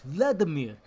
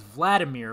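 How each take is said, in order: First: Imitating a foreign accent on "Vladimir"; mock foreign-accented name. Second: Said in the usual way. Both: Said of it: "They always have an accent".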